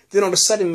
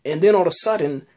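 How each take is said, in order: First: Quick laughing repeat, higher. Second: Said in the usual way. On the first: Real, not acted. Recapping the episode to viewers, laughing. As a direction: laugh through the words as they tumble out.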